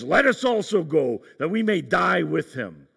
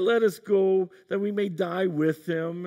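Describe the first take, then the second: First: It is said in a bold, brave voice. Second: It is said in a gloomy, resigned voice. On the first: The speaker is bravely ready to die. The speaker calls it right. "is he more speaking like Gimli, son of Glóin" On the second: The speaker is resigned to dying. The speaker calls it wrong. "should we read this in the voice of Eeyore from Winnie the Pooh?"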